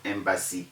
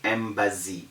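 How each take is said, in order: First: The middle consonant is a sharp s sound. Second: The middle consonant is a buzzing z sound. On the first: The speaker calls it right. "They must all have the original sound of an S" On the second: The speaker calls it wrong. "People say"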